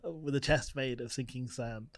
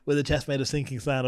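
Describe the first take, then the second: First: The line is spoken at a deliberately slower pace. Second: The line is spoken at a quicker, ordinary pace.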